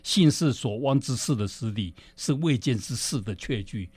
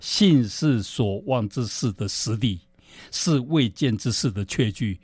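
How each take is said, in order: First: It is said at a faster pace. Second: It is said at a slower pace.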